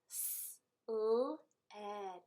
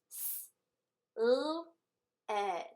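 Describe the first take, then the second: First: The sounds are said faster. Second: The sounds are said slowly.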